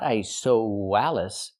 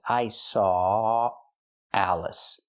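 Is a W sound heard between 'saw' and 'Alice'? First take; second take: yes; no. First: A w sound is inserted before 'Alice'. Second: 'Saw' links straight into 'Alice' without w. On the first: The speaker calls it wrong. "Not I saw Wallace. We don't pronounce the W" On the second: The speaker calls it right. "It's I saw Alice"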